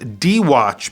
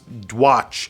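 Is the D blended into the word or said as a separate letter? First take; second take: separate letter; blended. First: The D is said as a separate letter name. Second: The D runs straight into the word watch. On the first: "Dwatch is D-Watch" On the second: "I think it is actually pronounced Dwatch"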